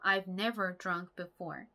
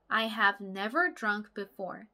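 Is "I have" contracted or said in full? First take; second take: contracted; full. First: "I have" is contracted into one syllable. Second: "I have" is said as two full words.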